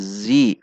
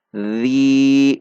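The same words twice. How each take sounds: First: Zi with a plain z sound; wrong take. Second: Tongue between teeth for Zi; correct zal. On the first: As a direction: show the mistaken zi slowly. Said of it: "bukan zi". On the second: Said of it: "Perhatikan sifat dan makhraj huruf zal". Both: Shown as a demonstration.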